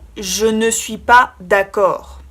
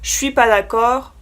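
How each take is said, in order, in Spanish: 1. La palabra 'ne' se pronuncia completamente. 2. La palabra 'ne' se omite en la frase.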